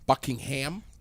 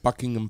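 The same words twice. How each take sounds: First: Buckingham is said in a Vermont accent. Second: Buckingham is said in a standard accent.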